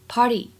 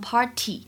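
First: The t is softened toward a d-like sound. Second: The t is a crisp, full t sound. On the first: The speaker calls it right. "就这个t 的发音呢会比较偏向的一点party" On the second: The speaker calls it wrong. "大家如果练美音会发现它呢一般不会读成party"

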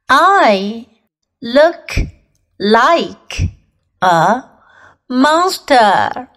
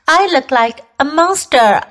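First: It is said slowly. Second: It is said at normal speed.

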